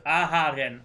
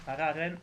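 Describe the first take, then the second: First: Aharen, with a clear h after the first A; careful "Aharen", breathed h in the middle; corrected name. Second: Araren, with an r in place of the h; questioning "Araren", h swapped for r; mispronounced name. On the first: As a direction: say "Aharen" with an audible h. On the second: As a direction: stumble on the name as "Araren", unsure. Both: Real, not acted. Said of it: "Her name is Aharen".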